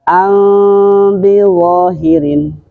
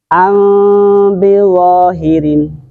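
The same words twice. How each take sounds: The two takes are said the same way.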